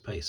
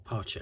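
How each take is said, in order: First: The name ends with an 's' sound. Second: The name ends with a 'ch' sound. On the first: The speaker calls it wrong. "I always used to refer, um, pronounce it Pace when I was younger" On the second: The speaker calls it right. "but I think it is supposed to be Pache"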